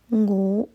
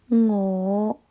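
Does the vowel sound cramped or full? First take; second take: cramped; full. First: The vowel is said with a narrow, cramped mouth. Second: The vowel is said with a fully open mouth. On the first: The speaker calls it wrong. "我在歌词里面听到的是我……口腔没有完全的打开，发音不够饱满" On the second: The speaker calls it right. "正确的是我"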